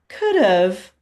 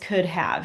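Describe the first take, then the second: First: Have is reduced, sounding like 'of'. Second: Have is pronounced fully and clearly. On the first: "when we say it quickly in English, it does sound like of" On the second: "but it really is could have"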